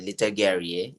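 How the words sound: The name is said in the host's accent. "with your accent, it will sound like that"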